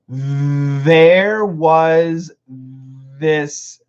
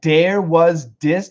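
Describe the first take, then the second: First: There and this start with a voiced th sound. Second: There and this start with a d sound. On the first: The speaker calls it right. "these two T H's are vibrated" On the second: The speaker calls it wrong. "Those are D sounds. We don't want D"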